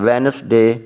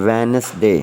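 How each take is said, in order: The two takes are said the same way.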